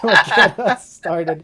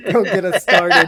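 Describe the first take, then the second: First: Drawn out, loud, laughing; slow laughing shout. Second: Don't get us started, shouted loud; loud laughing shout. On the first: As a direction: stretch it out while laughing. Repeated slower with a laugh. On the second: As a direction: bellow it through laughter. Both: Real, not acted.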